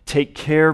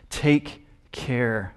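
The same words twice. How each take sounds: First: It is read at a louder volume. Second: It is read at a normal, quieter volume.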